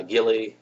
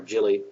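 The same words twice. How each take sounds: First: Gilly said with hard G as in "give". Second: Jilly said with a J sound as in "jet"; soft G. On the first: Reviewer guessing a character's name, Gilly with a hard G. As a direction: start "Gilly" with a hard g sound. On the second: Reviewer offering the other guess at the name, Jilly with a soft G. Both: Real, not acted. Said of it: "however you pronounce it".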